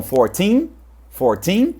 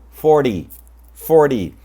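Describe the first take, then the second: First: Fourteen with a long rising second syllable; four-TEEN, lean on the end of fourteen; stress on TEEN. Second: Forty falling, with a flapped d; FOR-dee, short second syllable in forty; stress on FOR. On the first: Teacher recapping for learners, "fourteen" stressed on teen. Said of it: "também exatamente como". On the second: Teacher recapping for learners, "forty" stressed first. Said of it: "o que a gente já está mostrando aqui". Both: Shown as a demonstration.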